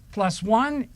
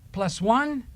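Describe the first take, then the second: No difference in how they are said.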